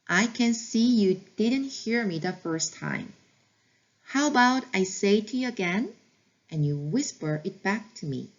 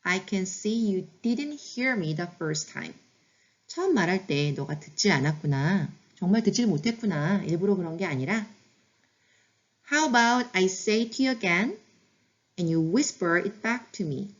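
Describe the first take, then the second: First: Slow practice repeat. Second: Every word stretched, calm and gentle; slow model phrase. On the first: Teacher repeating the phrase for learners, very slow. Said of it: "다시 한번 해볼게요". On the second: Teacher modeling a gentle request to a child, very slow. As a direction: model it slowly and kindly for the parent. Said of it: "이렇게 말씀해 주세요". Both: Shown as a demonstration.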